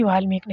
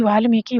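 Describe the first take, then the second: First: वाल्मीकि ending on k, no "i"; wrong clipped ending. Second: वाल्मीकि ending in "ki"; correct final vowel. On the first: Teacher rejecting the short form, wrong ending. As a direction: say वाल्मीकि as "vaal-meek". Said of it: "वाल्मीकि नहीं होगा". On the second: Teacher showing the right option, correct final vowel. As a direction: say वाल्मीकि as "vaal-mee-ki". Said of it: "ये वाला सही है". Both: Shown as a demonstration.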